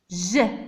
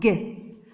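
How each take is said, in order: First: It is said as a soft zh sound. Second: It is said as a hard g sound. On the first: The speaker calls it right. "Il y a le E, donc nous allons la prononcer G" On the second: The speaker calls it wrong. "c'est pas G"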